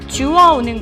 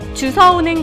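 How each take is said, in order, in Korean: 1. 두 번째 음절은 w 소리로 시작합니다. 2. 두 번째 음절은 s 소리로 시작합니다. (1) "주워오는 거죠" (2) "주워와라고 잘못 얘기하고"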